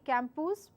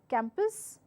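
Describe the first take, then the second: First: The second vowel is a full vowel. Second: The second vowel is a reduced schwa. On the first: The speaker calls it wrong. "I do not say campus because it has a U in it" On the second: The speaker calls it right. "it takes the schwa enunciation, schwa sound, and hence it is reduced to campus"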